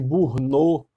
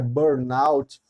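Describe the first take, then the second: First: The word is said with a French-like pronunciation. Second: The word is said with an English pronunciation. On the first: The speaker calls it wrong. "numa espécie de pronúncia equivocada, porque há um certo afrancesamento da pronúncia" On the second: The speaker calls it right. "mas na verdade o termo é burnout"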